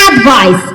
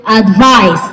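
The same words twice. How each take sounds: First: "advice" as a noun, AD-vice; stress on first syllable. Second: "advice" as a verb, ad-VICE; stress on second syllable. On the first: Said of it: "The stress is on the first". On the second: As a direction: land on the last syllable of "advice". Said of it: "the stress moves to the second syllable". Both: Shown as a demonstration.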